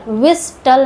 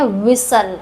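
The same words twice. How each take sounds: First: व्हिस्टल as wis-tal, t clearly heard; t wrongly sounded. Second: व्हिसल as wis-al, no t; silent-t pronunciation. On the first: Teacher showing learners the misreading of whistle, t wrongly sounded. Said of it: "व्हिस्टल नहीं पढ़ते". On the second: Teacher showing learners how whistle is read, silent-t pronunciation. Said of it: "इसको पढ़ते हैं व्हिसल". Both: Shown as a demonstration.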